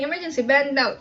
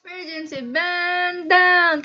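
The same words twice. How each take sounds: First: Said in the usual way. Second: Higher, drawn-out chant; drill command style. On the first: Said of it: "Hindi pwedeng". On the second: Shown as a demonstration. Showing how the drill must be said, drawn-out call. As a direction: stretch BAND and DOWN like a cabin call. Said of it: "Kailangan ganun yung pagkakasabi".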